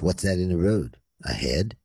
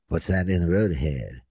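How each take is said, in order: First: It breaks before ahead, asked separately. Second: It flows as one question without a break.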